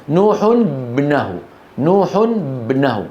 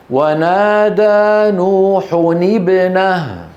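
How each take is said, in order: First: نوح ابنه as "nuhun-bnahu", tanween n straight onto b; unresolved sukun clash. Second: نوح ابنه chanted slowly as "nuhuni-bnah"; tanween with kasra. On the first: Teacher shows the clash, نوح ابنه said as "nuhun-bnahu". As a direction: say نوح ابنه with no vowel between n and b. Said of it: "ما هما الساكنان؟". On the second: Teacher models the fix, slow chant linking نوح ابنه with i. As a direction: recite it drawn out, short i after the n of نوح. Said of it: "فنكسر التنوين ونقول". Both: Shown as a demonstration.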